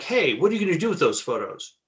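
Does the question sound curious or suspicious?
suspicious. The question sounds suspicious and confrontational.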